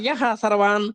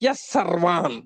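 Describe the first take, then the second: First: The word before sarvan ends in an h sound. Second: The word before sarvan ends in an s sound. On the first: The speaker calls it wrong. "యహ సర్వాన్ అని చదవటంలో కాస్త మనం cycle మళ్ళా అర్ధంతరంగా దిగి మళ్ళీ ఎక్కితాం" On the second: The speaker calls it right. "విసర్గల్ని కనుక సకారంగా మార్చుకుంటే ఎస్ సర్వాన్ అని చదువుకుంటే అందంగా ఉంటుంది"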